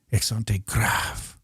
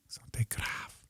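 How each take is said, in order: First: Slow, voiced and deliberate; drawn-out term. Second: Unvoiced-sounding quick whisper; barely audible, under your breath; whispered recall. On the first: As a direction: stretch out both words. Says the term out slowly. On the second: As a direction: whisper it to yourself. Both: Real, not acted.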